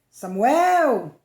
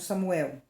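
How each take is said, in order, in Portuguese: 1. O nome é chamado com entonação animada. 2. O nome é dito de forma monótona, como narração simples. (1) "Ah, melhorou" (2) "faltou uma entonaçãozinha"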